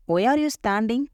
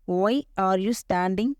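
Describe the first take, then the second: First: Said in the usual way. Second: "Why ... are you ... standing", spaced out; slow it down for learners to follow; slow teaching repeat. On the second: Shown as a demonstration. Teacher modelling a question for learners, slowly with gaps.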